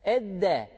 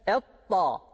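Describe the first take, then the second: First: The consonant sounds like a plain d. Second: The consonant sounds like an emphatic t. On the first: "Edde dersek bu da dal harfine benzer" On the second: "Etta dersek bu ta harfine"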